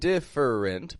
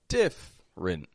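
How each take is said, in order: First: The middle vowel is pronounced, giving three syllables. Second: The middle vowel is dropped, giving two syllables. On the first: The speaker calls it wrong. "I'm not going different" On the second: The speaker calls it right. "So that middle E, totally omit that"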